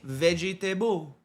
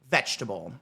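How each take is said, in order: First: Every written syllable of the word is pronounced. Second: The word is said with some syllables dropped. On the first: This is how others read it from the spelling. "Because that's the way it's spelled" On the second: This is how native speakers say it. "we say vegetable"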